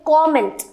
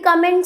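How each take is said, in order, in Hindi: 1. पहला स्वर एक खुली 'aw' आवाज़ है। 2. पहला स्वर एक छोटी 'uh' आवाज़ है। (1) "इसका प्रोनाउंसिएशन होता है कॉमेंट" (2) "no, the right pronunciation of this word ... is wrong"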